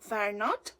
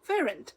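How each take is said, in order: First: Both words are said fully and separately. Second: The words are shortened into one syllable.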